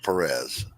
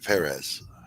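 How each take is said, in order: First: The stress is on the second syllable. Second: The stress is on the first syllable. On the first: The speaker calls it wrong. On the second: The speaker calls it right. "the emphasis is on the first syllable"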